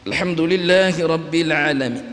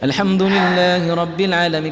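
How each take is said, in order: First: The voice sounds strained and held back. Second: The voice sounds clear and steady.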